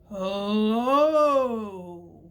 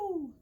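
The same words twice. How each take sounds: First: It is said in a very low voice. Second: It is said in a very high voice. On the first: "Let's say hello as low as we can. Get out your deep voice" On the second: "Let's say hello as high as we can. Get out your high voices"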